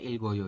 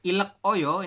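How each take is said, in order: First: The final consonant links into the next syllable. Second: The final consonant stays in the first syllable. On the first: The speaker calls it right. "Dibacanya ilgoyo ini ya" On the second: The speaker calls it wrong. "Bukan ilek oyo"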